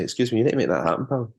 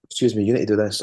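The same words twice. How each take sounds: First: A hint of a stern Scottish demand, fast; lightly put-on Scottish, quick and insistent; quick Scottish demand, only lightly voiced; Scottish accent. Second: Put-on Scottish accent. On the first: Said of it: "use this accent and go". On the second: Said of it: "Like that".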